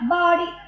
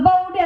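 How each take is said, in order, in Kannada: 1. ಮೊದಲ ಸ್ವರ 'ah' ತರ ಕೇಳಿಸುತ್ತೆ. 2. ಮೊದಲ ಸ್ವರ 'ow' ತರ ಕೇಳಿಸುತ್ತೆ. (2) "ಅದು ಬೌಡಿ ಅಲ್ಲ"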